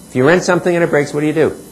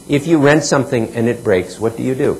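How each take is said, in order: First: "If you rent something" faster and higher, stress on "rent"; energized repeat. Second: Said in the usual way. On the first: Shown as a demonstration. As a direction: punch "rent", pick up the pace. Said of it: "repeated faster and higher". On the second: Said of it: "repeated with more energy".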